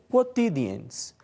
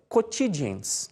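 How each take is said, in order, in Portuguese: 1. É pronunciado no latim clássico reconstruído. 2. É pronunciado no latim à maneira do português brasileiro. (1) "na pronúncia reconstituída" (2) "na pronúncia regional"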